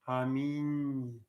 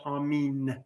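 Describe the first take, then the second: First: The final n is softened toward ny. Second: The final n is plain and hard. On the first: The speaker calls it right. "with a slight ny" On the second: The speaker calls it wrong. "not Amin"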